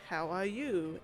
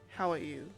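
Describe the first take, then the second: First: The pitch rises at the end. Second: The pitch falls at the end. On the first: "you go up when you when you do a question" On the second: "It's like it's like goes down"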